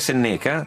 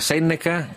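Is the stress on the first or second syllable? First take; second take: second; first. First: The stress is on the second syllable. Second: The stress is on the first syllable. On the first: The speaker calls it wrong. "Che non è Senneca" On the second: The speaker calls it right. "con l'accento sulla prima E"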